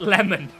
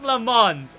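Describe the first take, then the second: First: It is pronounced like the fruit, lemon. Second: It is pronounced with the ending 'Lamons'. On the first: The speaker calls it wrong. "I know it's not lemon" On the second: The speaker calls it right. "I know it's pronounced Lamons"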